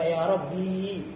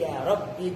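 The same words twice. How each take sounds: First: The vowel is drawn out long. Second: The vowel is kept short. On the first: The speaker calls it wrong. "Kalau dipanjangkan ya malah taktiannya salah" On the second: The speaker calls it right. "Ya benar ya pendek seperti ini"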